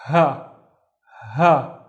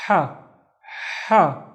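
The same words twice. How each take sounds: First: "ha" with a light h, as in English house; regular ha. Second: "ha" with a strong, winded Arabic h; out-of-breath ha. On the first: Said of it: "do them side by side". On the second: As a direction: push out "ha" as if running out of breath. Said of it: "the one running out of breath". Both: Shown as a demonstration.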